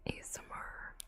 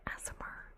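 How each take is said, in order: First: Said in the usual way. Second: "A S M R" run together as one word, like "azmer"; ASMR as a word. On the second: Shown as a demonstration. Streamer showing a joke pronunciation, "A S M R" said as "azmer". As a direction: say "A S M R" as a word rather than letters. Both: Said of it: "Sometimes I pronounce A S M R as A S M R".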